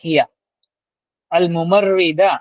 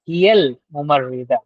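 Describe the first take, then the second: First: The 'a' of 'al' is pronounced separately. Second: The 'a' of 'al' is dropped and linked. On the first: "इसमें भी हम अलिफ लाम को पढ़ रहे हैं" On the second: "हम अलिफ को स्किप कर रहे हैं और डायरेक्टली लाम को जोड़ के"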